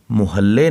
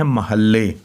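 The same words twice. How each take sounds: First: "मुहल्ले" with a short u, mu-halle; mispronunciation. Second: "महल्ले" with a short a, ma-halle; short a after the m in "महल्ले"; correct pronunciation. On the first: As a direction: say "मुहल्ले" with u after the m. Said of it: "मुहल्ले नहीं पढ़ना इसे". ("मुहल्ले" में म पर पेश, मु-हल्ले) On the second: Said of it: "इसे पढ़ना है महल्ले". ("महल्ले" में म पर ज़बर, म-हल्ले) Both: Shown as a demonstration.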